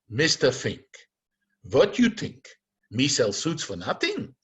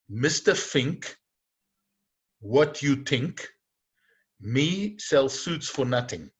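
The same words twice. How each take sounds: First: The last sentence is said as a disbelieving question. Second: The last sentence is said as a plain statement.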